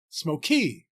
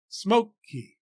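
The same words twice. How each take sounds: First: The stress is on the second syllable. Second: The stress is on the first syllable. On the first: The speaker calls it wrong. "We don't say smoky" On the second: The speaker calls it right. "place a heavier weight or stress on the first syllable"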